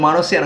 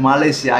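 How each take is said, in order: First: The word is said as 'Manasia'. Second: The word is said as 'Malaysia'. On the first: The speaker calls it wrong. "মানসিয়া নয়" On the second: The speaker calls it right. "আগে উচ্চারণ করো, ঠিক করে"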